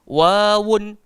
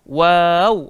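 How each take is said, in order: First: The word ends with an added 'un' sound. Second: The word ends on a bare w sound. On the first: The speaker calls it wrong. "Kita tak baca" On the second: The speaker calls it right. "tapi kita baca"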